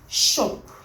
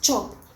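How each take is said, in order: First: The word begins with a soft sh sound. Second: The word begins with a sharp ch sound. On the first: The speaker calls it wrong. "not shop" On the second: The speaker calls it right. "It should be pronounced chop"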